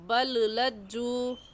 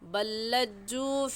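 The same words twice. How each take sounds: First: The first L is sounded separately before the next. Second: The first L merges into one doubled L. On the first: The speaker calls it wrong. "इसे बल्लज्जू पढ़ना गलत होगा" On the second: The speaker calls it right. "सही है बल्लज्जू"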